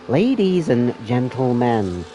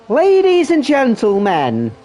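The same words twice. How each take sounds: First: It is said in a Joker impression voice. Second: It is said in his normal voice.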